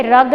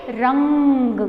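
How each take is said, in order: First: "रग" short, with no nasal; wrong pronunciation. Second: "रंग" drawn out with a held nasal; correct pronunciation. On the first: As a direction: leave out the ng and say "रग". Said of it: "नहीं पढ़ेंगे उसको". ("रग" बिना अनुस्वार के, छोटा) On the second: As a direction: hum the ng in "रंग" before closing. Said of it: "क्या पढ़ेंगे?". ("रंग" में अनुस्वार खींचकर) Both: Shown as a demonstration.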